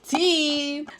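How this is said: It is said in an imitated, put-on voice.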